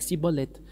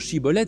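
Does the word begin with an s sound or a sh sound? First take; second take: s; sh. First: The word begins with a lisped s sound. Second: The word begins with a sh sound. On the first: It marks the speaker as an outsider. The speaker calls it wrong. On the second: It marks the speaker as an insider. The speaker calls it right.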